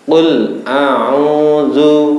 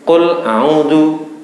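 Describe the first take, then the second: First: The long vowel is held for two beats. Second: The long vowel is cut short. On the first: The speaker calls it right. "panjangnya satu alif atau dua harokat" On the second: The speaker calls it wrong. "Jangan dibaca biasa tanpa panjang"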